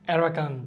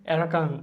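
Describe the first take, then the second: Both takes have the same delivery.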